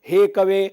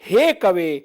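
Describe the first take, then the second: First: The long vowel is said lightly, without extra force. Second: The long vowel is said with strong, forceful stress. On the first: The speaker calls it wrong. "तो दीर्घ स्वर ठीक से सुनाई नहीं देगा" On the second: The speaker calls it right. "इस तरह से आप कर सकते हैं"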